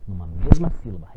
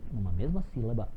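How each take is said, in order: First: Numa mesma sílaba said much louder, hitting mesma hard; teacher repeating numa mesma sílaba loud for emphasis; emphatic repeat, louder. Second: Said in the usual way. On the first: Shown as a demonstration. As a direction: drive home mesma with a louder restatement.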